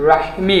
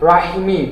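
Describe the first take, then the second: The two takes are said the same way.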